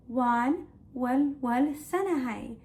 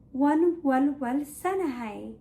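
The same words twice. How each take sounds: The two takes are said the same way.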